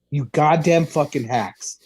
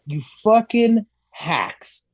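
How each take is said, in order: First: Said in the usual way. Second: Drawn-out, slow sneer on fucking; slow contempt. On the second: Acted. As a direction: spit out "You fucking hacks" slowly. Ranting at politicians.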